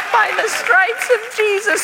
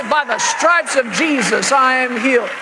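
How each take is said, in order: First: Very high, loud, slow squeak; hammed-up little-kid squeal; puppet child voice. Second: Parent leading a boy in a hammed-up confession; imitated faith-shout; loud confession. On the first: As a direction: parrot it like a tiny puppet. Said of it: "a little puppet voice when I was a child". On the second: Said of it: "Say it out loud".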